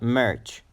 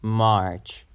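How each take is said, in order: First: The vowel in the word is short. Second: The vowel in the word is long. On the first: The speaker calls it wrong. "So it's not March" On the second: The speaker calls it right. "You have to pronounce it a bit longer"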